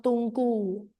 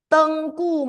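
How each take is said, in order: First: "Tunku" with a rounded U, TUN-ku, softer; the wrong way. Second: "Tengku" with a clear open E, TENG-ku; say Tengku right. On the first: Teacher showing the class the wrong form, softly rounded U. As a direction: say "Tunku" with a short U in place of the E. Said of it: "not Tunku". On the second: Teacher correcting the class's pronunciation, clear open E. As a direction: stress the first syllable of "Tengku", the E wide open. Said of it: "open your eyes big, big and wide, wide, not Tunku". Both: Shown as a demonstration.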